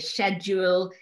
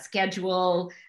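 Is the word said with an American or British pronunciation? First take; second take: British; American. First: The word is said with a British pronunciation. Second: The word is said with an American pronunciation. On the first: "we used to say schedule" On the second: "instead of schedule"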